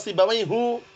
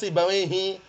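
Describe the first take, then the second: First: The name ends with a u vowel. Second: The name ends with an i vowel. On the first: The speaker calls it wrong. "nggak pernah dibaca Sibawaihu" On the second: The speaker calls it right. "pasti dibacanya Sibawaihi"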